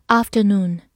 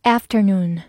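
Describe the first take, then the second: First: British pronunciation of "afternoon"; British accent. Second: American pronunciation of "afternoon"; American accent. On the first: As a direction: say "afternoon" the British way, open first vowel. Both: Shown as a demonstration. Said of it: "美式发音读作afternoon".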